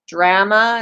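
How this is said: The word is said the Canadian way. "I would say drama"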